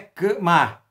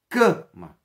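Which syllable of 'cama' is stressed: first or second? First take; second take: second; first. First: The stress is on the second syllable. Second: The stress is on the first syllable. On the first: The speaker calls it wrong. "Não é cama" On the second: The speaker calls it right. "é cama"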